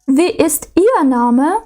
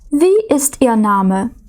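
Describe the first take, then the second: First: The stress is on the word ihr. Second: The stress is on the word wie. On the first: The name of one particular person in a group is wanted. "Тут ми наголошуємо вже «ihr»" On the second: The name was not heard and is asked again. "коли ми щось перепитуємо, ми не почули"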